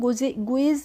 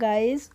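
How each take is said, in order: First: It is said like 'goo-iz', with a 'u-i' vowel. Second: It is said like 'guys', with an 'eye' vowel. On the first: The speaker calls it wrong. "इसको हम गुइज नहीं पढ़ते हैं" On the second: The speaker calls it right. "इसको पढ़ते हैं गाइस"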